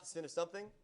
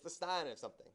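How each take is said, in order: First: The word is said like 'sin'. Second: The word is said like 'sign'. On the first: The speaker calls it wrong. "Please do not say the sin of something" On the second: The speaker calls it right. "It's the sine of something"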